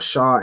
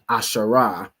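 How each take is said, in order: First: The word ends in a consonant. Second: The word ends in an extra vowel. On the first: "Or ashar instead of" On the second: "in terms of um like pronouncing each letter"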